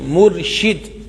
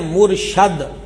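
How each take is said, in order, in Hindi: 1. 'sh' के बाद का स्वर 'i' है। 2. 'sh' के बाद का स्वर 'a' है। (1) "सही लफ्ज यही है मुर्शिद" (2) "अगर इसको कोई पढ़े ना मुर्शद"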